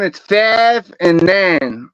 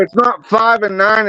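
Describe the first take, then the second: First: Slow, with "five" said as fav in a Pittsburgh accent; Pittsburgh "five and nine", slow, with "five" as fav. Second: Said in the usual way. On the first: Shown as a demonstration. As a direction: stretch "five" into a flat Pittsburgh fav, slowly. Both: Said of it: "Hear me out though".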